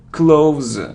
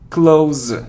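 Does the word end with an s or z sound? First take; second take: z; z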